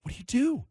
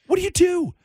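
First: Softly posed, slightly raised question; hushed question. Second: Much higher, fuller-voiced repeat of the question; exasperated, high rhetorical question; high-pitched exasperation. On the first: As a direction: ask it quietly, as if pondering. Rhetorical question repeated for emphasis. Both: Real, not acted.

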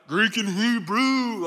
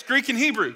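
First: Drawn-out, mock know-it-all answer; mimicking eager dudes. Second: Said in the usual way. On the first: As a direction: stretch it out like the guys in the front row. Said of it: "the dudes up in the front are like".

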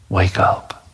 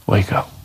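First: Tender whisper. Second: Said in the usual way. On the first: Acted. Jesus to the dead girl, tender whisper. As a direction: whisper it like waking a sleeping child.

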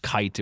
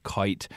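First: Said in the usual way. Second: Put-on kite with the old Vermont vowel, "koit"; long Vermont I. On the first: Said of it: "instead of kite". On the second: Shown as a demonstration. Reporter giving another example, long Vermont I in kite. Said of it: "you hear that with other words".

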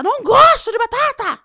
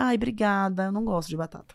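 First: High, loud outburst; exasperated yell. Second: Said in the usual way. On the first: Acted. Guest acting someone offered potatoes once too often, exasperated yell. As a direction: yell it as if patience has finally snapped. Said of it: "você vai gritar". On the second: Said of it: "você não disse lá atrás, na primeira".

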